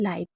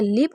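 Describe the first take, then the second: First: The vowel is long, like in 'eye'. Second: The vowel is short, like in 'sit'. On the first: It means living or happening now. "और एक होता है लाइव" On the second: It means to reside somewhere. "एक होता है लिव"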